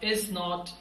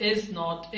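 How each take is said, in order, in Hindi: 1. इसे दो अलग-अलग पूरे शब्दों के रूप में बोला जाता है। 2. इसे दो अलग-अलग पूरे शब्दों के रूप में बोला जाता है।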